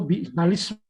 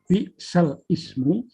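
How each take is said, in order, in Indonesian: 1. Diucapkan menyambung sebagai satu kata. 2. Diucapkan sebagai dua kata terpisah. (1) "bukan lismu" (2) "maka yang benar bacaannya adalah bi'sal ismu"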